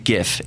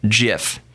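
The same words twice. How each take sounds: First: It begins with a hard G sound. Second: It begins with a soft G sound. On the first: The speaker calls it right. "It is not the G as in giraffe" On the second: The speaker calls it wrong. "If it was giraffe interchange format, it would be pronounced"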